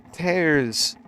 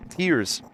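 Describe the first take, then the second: First: "Tears" said to rhyme with "bears"; "Tears" high, with the vowel of "air"; misread as "tares". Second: "Tears" said to rhyme with "ears"; "Tears" high, with the vowel of "ear"; corrected to "teers". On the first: Misreads word, then corrects it. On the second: Corrects the misread word. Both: Real, not acted.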